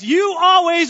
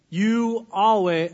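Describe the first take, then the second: First: Loud accusing "You always"; blaming "You always", louder. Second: Drawn-out accusing "You always"; slow, blaming "You always". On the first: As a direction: say "You always" like a charge against your spouse. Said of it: "I'm gonna say the phrase". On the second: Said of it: "I'm just kidding, don't do this". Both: Shown as a demonstration.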